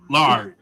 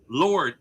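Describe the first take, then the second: First: The vowel is open, like 'lard'. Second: The vowel is rounded, like 'lord'. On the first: The speaker calls it wrong. "who is Lord? Lard" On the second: The speaker calls it right. "It's Lord, Lord, L O R D"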